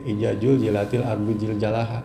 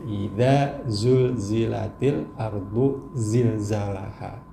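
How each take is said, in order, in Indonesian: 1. Setiap konsonan itu dilafalkan seperti J dalam bahasa Inggris. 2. Setiap konsonan itu dilafalkan seperti Z dalam bahasa Inggris. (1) "J semua dari awal sampai akhir" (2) "jadi z z z z"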